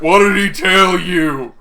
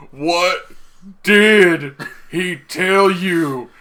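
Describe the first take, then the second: First: Loud, high, slow hammed-up interrogation; mock screaming demand. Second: Very slow, loud, high, word-by-word yell; hammed-up interrogation, every word drawn out; mock screaming demand. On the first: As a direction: yell the question, stretching it out. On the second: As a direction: break the question up with big pauses. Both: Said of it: "grabbing onto his shirt and screaming".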